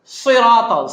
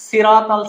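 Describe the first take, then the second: First: সিরাতাল louder with a heavy সাদ; correct sirat. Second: সিরাতাল with a thin sin; wrong sirat. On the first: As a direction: say সিরাতাল with a full heavy sad. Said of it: "সাদ আছে". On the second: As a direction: say সিরাতাল with a light plain s. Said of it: "সিন বললাম". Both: Shown as a demonstration.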